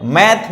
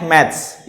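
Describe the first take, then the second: First: मैथ said with no s at the end, slow, with a rising tune; American math. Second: मैथ्स said with a clear s at the end, short and falling; British maths. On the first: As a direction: say मैथ stopping on the th sound, drawn out. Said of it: "मैथ अगर एस नहीं लगा तो वो American English". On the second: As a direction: add the s to मैथ्स and let it drop. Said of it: "और जो एस लगा दिया वो British English". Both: Shown as a demonstration.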